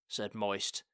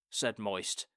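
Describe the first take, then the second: Both takes have the same delivery.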